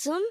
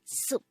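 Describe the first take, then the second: First: The syllable ends with an m sound. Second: The syllable ends with a p sound. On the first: The speaker calls it right. "it's sum" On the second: The speaker calls it wrong. "not soup"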